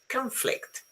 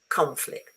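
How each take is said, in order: First: The stress is on the second syllable. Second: The stress is on the first syllable. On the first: It is used as a noun. "as a noun, ... falls on the second syllable" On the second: It is used as a verb. "As a verb, the stress falls on the first syllable"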